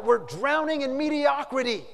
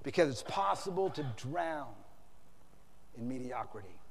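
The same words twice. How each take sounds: First: High, loud acted climax; yelled. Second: Low, hushed aftermath; quiet, sober. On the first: Editor's final cry to his workers, yelled. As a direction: yell it out like a last warning. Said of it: "then he yelled out". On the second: Real, not acted. Preacher brings it home to congregation, quiet and sober. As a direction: let it drop softly after a pause.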